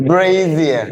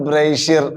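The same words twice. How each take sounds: First: "Brazier" as BRAY-zee-uh, z clearly buzzed; correct pronunciation. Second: "brazier" as BRAY-sher, with a hushed sh; mispronunciation. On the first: Teacher leads everybody in the right form, carefully modelled. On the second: Teacher shows the class the form to avoid, mispronounced. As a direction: say "brazier" in two syllables, sh in place of z. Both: Shown as a demonstration. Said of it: "Not a brazier".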